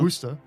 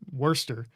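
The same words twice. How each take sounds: First: It rhymes with the word rooster. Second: It begins like the word worst. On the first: "like like a rooster" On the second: "almost like worst"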